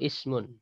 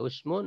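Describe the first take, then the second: First: The first vowel is a front i sound. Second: The first vowel is a rounded u sound. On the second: "dengan mendomakan hamzah"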